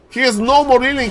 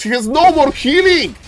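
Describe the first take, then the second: First: Excited repeat. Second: Much higher, louder cry; thrilled shoutcaster; excited call. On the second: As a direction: announce the danger with glee. Caster hype. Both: Real, not acted.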